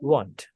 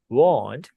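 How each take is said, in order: First: The vowel is short and clipped. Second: The vowel is drawn out and long. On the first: The speaker calls it right. "rather you should say it as want. Short oh sound" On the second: The speaker calls it wrong. "you don't say it as want"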